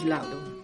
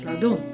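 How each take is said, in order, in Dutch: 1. De klemtoon ligt op de eerste lettergreep. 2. De klemtoon ligt op de laatste lettergreep. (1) "het is Laudon" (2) "Met de klemtoon op de laatste lettergreep. Fout is"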